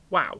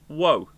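First: The vowel rhymes with 'cow'. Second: The vowel rhymes with 'go'. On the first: This is the standard pronunciation used by most people. "proper people pronounce it WOW" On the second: This is the regional pronunciation used in Wales. "in Wales, they go"

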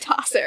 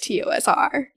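First: The name is said as one whole word. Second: The name is spelled out letter by letter. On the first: The listener treats it as a pronounceable name. "He wouldn't say Tosser" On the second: The listener does not know it is meant as a word. "So he would just said TOSR"

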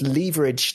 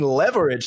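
First: It is said with a British pronunciation. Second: It is said with an American pronunciation. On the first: "I said leverage to him" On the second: "You mean leverage?"

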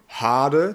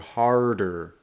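First: The r sound is weak and light. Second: The r sound is very strong and hard.

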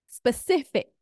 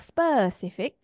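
First: The stress is on the second syllable. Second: The stress is on another syllable. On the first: The speaker calls it right. "sif there" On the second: The speaker calls it wrong. "not specific"

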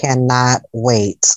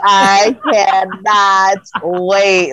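First: It is said calmly, without extra emphasis. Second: It is said with strong, energetic emphasis.

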